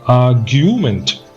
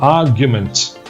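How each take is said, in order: First: The middle 'gu' vowel is drawn out long. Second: The middle 'gu' vowel is kept short. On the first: The speaker calls it wrong. "don't say argument. Don't make it the gu" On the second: The speaker calls it right. "Just argument. Just a short u"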